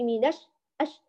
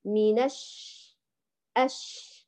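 First: الش with the sh stopped short; short, suppressed sh in الش; cut-off shin. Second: Slow الش with the sh left running; long spreading shhh at the end of الش; flowing shin. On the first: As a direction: choke off the ش at the end of الش. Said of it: "وتقطعي صوت الشين". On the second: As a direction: let the ش in الش flow on. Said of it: "لا، خليه يجري". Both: Shown as a demonstration.

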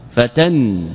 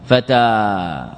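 First: "فتن" closed on a ringing final n; tanween nun. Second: "فتى" drawn out slowly on a long final aa; silent final alif. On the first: Teacher showing the dropped alif, "فتن" ending in tanween n. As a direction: shorten the vowel and end "فتن" in -an. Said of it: "والتنوين نون". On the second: Teacher showing students the still alif, "فتى" with stretched aa. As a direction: hold the open vowel ending "فتى", no n. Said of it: "ساكنة أو متحركة؟". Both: Shown as a demonstration.

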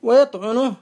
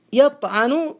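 First: ويطعنه said wa-yaṭʕunuh; damma on ويطعنه. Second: يطعن said yaṭʕanu; fatha on يطعن. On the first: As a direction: put a u after the ʕayn in ويطعنه. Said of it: "بالضم المشهور". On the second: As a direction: put an a after the ʕayn in يطعن. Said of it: "بالفتح المقيس". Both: Shown as a demonstration.

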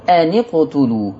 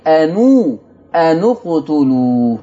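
First: أن اقتلوا slowly, the nun joined with a kasra; Hafs reading with kasra. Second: أنو اقتلوا slowly, the nun rounded to "u"; Warsh reading with damma. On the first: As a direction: read أن اقتلوا as "ani-qtulu", slow. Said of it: "يكسر الساكن الأول". (نطق أن اقتلوا بكسر النون على رواية حفص) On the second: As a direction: stretch out "anu-qtulu". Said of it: "عشان كده بقول إيه". (أنو اقتلوا ببطء بضم النون على رواية ورش) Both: Shown as a demonstration.

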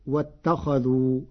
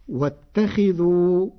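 First: "واتخذوا" as "wattakhadhu", open "a" after خ; fatha on khaa. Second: Said in the usual way. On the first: Shown as a demonstration. Teacher showing Warsh's past-tense reading, "واتخذوا" said wattakhadhu. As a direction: open the خ to "kha", not "khi", in "واتخذوا". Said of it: "بفتح الخاء". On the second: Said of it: "قرأ ورش كلمة".

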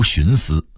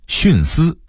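First: 徇私 as xúnsī; rising tone on 徇 in 徇私; Beijing reading. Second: Said in the usual way. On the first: Shown as a demonstration. Narrator contrasting word lists, Beijing reading. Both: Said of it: "北京话读徇私".

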